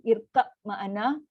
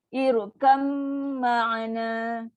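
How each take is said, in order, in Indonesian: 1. Bunyi b biasa terdengar tanpa pantulan. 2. Bunyi b menyatu menjadi m sengau yang panjang. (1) "Satu dibunyikan ba tanpa melantun" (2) "masuk dan dengung. Settlekan dengung yang paling panjang"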